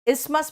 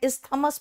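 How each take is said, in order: First: The middle 'th' sound is left out. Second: The middle 'th' sound is clearly pronounced. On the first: The speaker calls it right. "टी एच जो है ना ये silent है" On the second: The speaker calls it wrong. "इस्थमस मत कहना"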